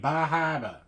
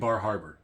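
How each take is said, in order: First: The name is said in a local accent. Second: The name is said in a plain accent. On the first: "if I'm saying it right, I feel like it's got to be Bahaba" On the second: "I love saying Bar Harbor"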